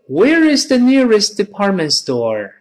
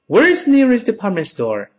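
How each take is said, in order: First: The sentence is spoken slowly. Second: The sentence is spoken quickly. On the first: "再慢一点" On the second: "再快点"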